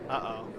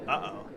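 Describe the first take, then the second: Both takes have the same delivery.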